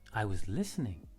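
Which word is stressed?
listening. The stress falls on the word listening. Listening was the activity being done.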